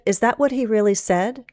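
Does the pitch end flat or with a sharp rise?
flat. The pitch ends without a sharp rise. "Instead of"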